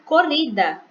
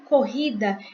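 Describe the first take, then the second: First: The middle R is a light tap. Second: The middle R is strong and guttural. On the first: The speaker calls it wrong. "Se eu colocasse só um R" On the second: The speaker calls it right. "em vez de corrida"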